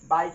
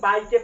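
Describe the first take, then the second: First: The word ends in a consonant sound. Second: The word ends with an extra vowel sound. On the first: The speaker calls it right. "इसको हम क्या पढ़ेंगे, बाइक ही पढ़ेंगे" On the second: The speaker calls it wrong. "ये नहीं कि इसको बाइके पढ़ दें, ऐसा नहीं हो सकता"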